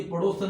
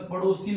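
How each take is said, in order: First: पड़ोसन with a plain "सन" ending; wrong form. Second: पड़ोसिन with a clear short "सिन" ending; correct form. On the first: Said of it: "नहीं होता". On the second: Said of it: "होता है". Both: Shown as a demonstration.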